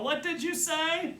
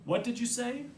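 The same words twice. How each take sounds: First: High, drawn-out shout; yelled question. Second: Said in the usual way. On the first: A narrator's reading. Brother feigning deafness to his sister, yelling. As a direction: call slowly as if unable to hear. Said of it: "I yell". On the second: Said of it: "I'll use my old".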